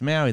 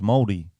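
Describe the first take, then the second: First: It is said the Anglicized Australian way. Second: It is said the Maori-style way. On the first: The speaker calls it wrong. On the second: The speaker calls it right. "They're like, no, it's Moldy"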